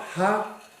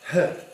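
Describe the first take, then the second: First: The h is followed by a vowel sound. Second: The h is breathed out with no vowel. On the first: The speaker calls it wrong. "it's not ha" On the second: The speaker calls it right. "it's just h"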